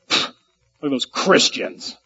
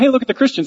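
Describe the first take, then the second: First: It is said in a scornful, mocking tone. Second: It is said in a plain, friendly tone.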